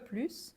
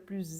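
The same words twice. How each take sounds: First: The word ends in an s sound. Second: The word ends in a z sound. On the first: "we pronounce the S" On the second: "we change it to a Z"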